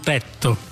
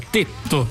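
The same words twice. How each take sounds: First: The stressed e is an open vowel. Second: The stressed e is a closed vowel. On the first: The speaker calls it wrong. "non tetto" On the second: The speaker calls it right. "il tetto con la E chiusa"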